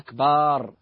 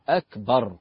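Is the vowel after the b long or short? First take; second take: long; short. First: The vowel after the b is drawn out long. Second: The vowel after the b is kept short. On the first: It sounds like a word for a drum. The speaker calls it wrong. "بعض الناس يخطئ فيقول الله أكبر فيمد الباء" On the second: It means God is greater. The speaker calls it right. "قل الله أكبر"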